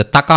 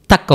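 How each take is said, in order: First: తకా ending in an open aa; full final vowel. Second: తక్ closed on the k; halant ending. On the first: (తకా చివర అచ్చుతో పలకండి) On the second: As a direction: end తక్ on k with no vowel. (తక్ చివర పొల్లుతో పలకండి) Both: Shown as a demonstration. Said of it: "తకా అవ్వదన్నమాట".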